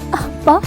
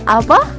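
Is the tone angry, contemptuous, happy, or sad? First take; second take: sad; happy. First: It is said in a sad tone. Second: It is said in a happy tone.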